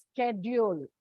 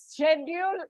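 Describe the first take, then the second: First: Schedule as "SKED-yool", hard K after the S; American-style "sked-yool" for schedule. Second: Schedule as "SHED-yool", SH at the start; British-style "shed-yool" for schedule. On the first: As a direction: say schedule with an SK start. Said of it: "while in American English, it is pronounced". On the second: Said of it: "is British way of pronunciation". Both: Shown as a demonstration.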